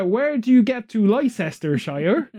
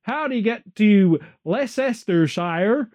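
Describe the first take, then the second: First: Put-on a would-be American accent drifting into Bristolian; mock American accent that slips to Bristol. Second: Put-on slow, drawn-out American accent asking directions; American impression. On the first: Imitating an American asking directions, in a Bristol-tinged accent. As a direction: imitate an American tourist but land on a Bristol farmer's accent. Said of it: "you sound more like a farmer from Bristol".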